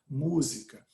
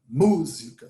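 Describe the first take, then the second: First: The stressed syllable gets weight without extra force. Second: The stressed syllable is hit with crude force. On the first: The speaker calls it right. "fala música" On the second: The speaker calls it wrong. "você não faz uma grosseria dessa"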